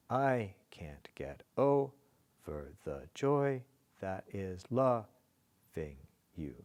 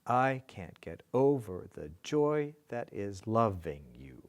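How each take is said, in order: First: Slow, with weight on "I", "over", "joy", "loving"; marking the accents. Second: Said in the usual way. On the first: Shown as a demonstration. Teacher marking the accents, slow dactylic beat. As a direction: break it into beats, stressing "I", first syllable of "over", "joy". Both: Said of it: "I said I'd mark the accents".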